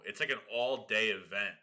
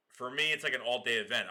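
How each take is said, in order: First: Said in the usual way. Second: "me" a bit louder and lifted, the rest of "For me, it's like an all-day event." follows plainly; stress on me. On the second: Shown as a demonstration. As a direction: lean into "me" to make it personal.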